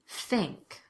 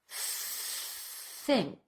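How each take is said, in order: First: It is said quickly in a conversational way. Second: It is said slowly with a drawn-out th. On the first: "Now let's speed it up" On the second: "We'll do the words really slowly and exaggerate the T H at first"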